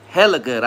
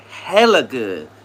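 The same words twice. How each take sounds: First: Said in the usual way. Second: Drawn-out savoring. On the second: Pretend. Savoring tamales.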